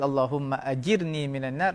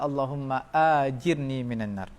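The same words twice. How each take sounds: First: The first vowel of ajirni is short. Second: The first vowel of ajirni is long. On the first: It asks for protection from hellfire. The speaker calls it right. "yang betul" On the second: It asks to be repaid with hellfire. The speaker calls it wrong. "yang salah"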